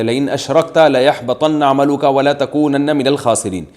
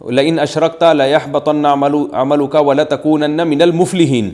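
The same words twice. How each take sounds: First: Measured chanted recitation of the verse; Quran recitation. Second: Chanted verse ending on الْمُفْلِحِينَ instead of الْخَاسِرِينَ; wrong recitation. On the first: Mufti quoting the correct verse to questioners, recited. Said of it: "اللہ تعالیٰ کا ارشاد ہے". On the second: Mufti acting out a serious misreading of the verse, recited. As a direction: recite it as the mistaken reader would, ending with الْمُفْلِحِينَ. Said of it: "جیسے کسی نے آیت پڑھی". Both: Shown as a demonstration.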